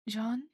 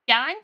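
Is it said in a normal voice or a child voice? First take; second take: normal voice; child voice. First: It is said in a normal adult voice. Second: It is said in a put-on child voice.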